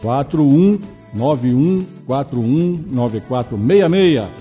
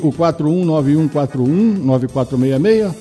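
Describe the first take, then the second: First: The number is read more slowly. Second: The number is read at normal, faster speed.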